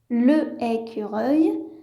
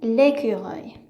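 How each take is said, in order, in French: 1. La voyelle de l'article se prononce devant le nom. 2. La voyelle de l'article s'élide devant le nom. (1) "je ne peux pas dire le écureuil" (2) "je dois supprimer la première voyelle"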